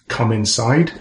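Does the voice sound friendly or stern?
friendly. It is said in a warm, friendly tone. There is nothing to worry about. "and she's smiling"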